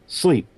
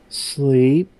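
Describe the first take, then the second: First: The voice falls like a command. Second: The voice rises like a question.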